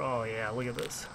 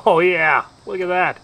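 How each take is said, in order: First: Soft, low, hushed admiration; hushed murmur. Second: Loud, delighted exclamation; excited exclamation. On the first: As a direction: murmur it under your breath. Quiet murmur while tasting dip. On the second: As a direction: call it out, thrilled. Loud reaction after tasting dip. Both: Real, not acted.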